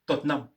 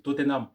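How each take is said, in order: First: "Tottenham" clipped to two syllables, tot-nam; swallowed syllable. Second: "Tottenham" said the French way, every syllable given: o-te-nam; French reading. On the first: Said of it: "on va te dire Tottenham". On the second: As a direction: read "Tottenham" as spelt, three even syllables. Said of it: "nous, avec l'accent francophone". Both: Shown as a demonstration.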